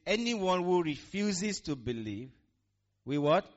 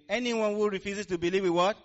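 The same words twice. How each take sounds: First: Said in the usual way. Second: Higher, louder call to the congregation; louder retake. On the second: Shown as a demonstration. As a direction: say it again with more force. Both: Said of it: "Let's go again".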